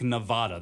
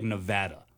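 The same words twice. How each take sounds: First: "Nevada" said neh-VAH-da; Nevada with broad ah. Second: "Nevada" said neh-VAD-a, as in "mad"; short A of "cat" in "Nevada". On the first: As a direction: stretch an open AH in "Nevada". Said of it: "I don't think they like Nevada". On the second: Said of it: "They like Nevada". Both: Shown as a demonstration.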